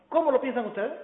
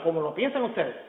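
First: Rising question tune on ¿cómo lo piensan ustedes?, cómo lifted. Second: Falling statement tune on ¿cómo lo piensan ustedes?, said lower and settled. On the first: Lecturer reads the verse as a question to the audience, rising tune. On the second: Lecturer reads the same verse as a statement, falling and lower. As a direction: state it flatly, falling at the end. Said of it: "o afirmativa". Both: Shown as a demonstration.

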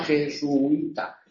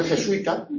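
First: "jesuita" stretched as je-su-i-ta; hiatus. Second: "jesuita" as je-sui-ta, ui run together; diphthong. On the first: Teacher showing a morning variant, "jesuita" with u and i separate. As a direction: hold u and i apart in "jesuita". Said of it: "pronúnciese por la mañana". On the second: Teacher showing an afternoon variant, "jesuita" with ui joined. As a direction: say "jesuita" with u gliding straight into i. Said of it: "y por la tarde". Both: Shown as a demonstration.

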